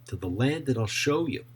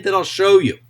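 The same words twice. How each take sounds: First: Said in the usual way. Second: Divine command. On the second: Acted. God's command read with force.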